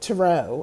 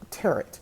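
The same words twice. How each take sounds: First: The final T is left silent. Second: The final T is clearly pronounced. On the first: The speaker calls it right. "she's like, tarot" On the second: The speaker calls it wrong. "like carrot, tarot. That's how I was saying it"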